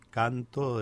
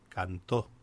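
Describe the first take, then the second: First: The stress is on the first syllable. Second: The stress is on the last syllable. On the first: The speaker calls it right. "en vez de decir canto" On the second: The speaker calls it wrong. "una palabra vaya mal acentuada"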